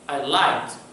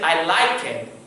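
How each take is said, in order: First: The ending is a single t sound. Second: The ending is said as an extra syllable. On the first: The speaker calls it right. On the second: The speaker calls it wrong.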